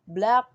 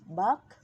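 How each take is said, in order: First: The full consonant cluster is pronounced. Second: Only the first consonant of the cluster remains.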